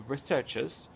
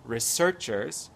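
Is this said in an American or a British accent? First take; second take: British; British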